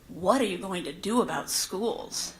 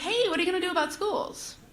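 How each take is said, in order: First: It is asked in an accusing tone. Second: It is asked in a curious, friendly tone.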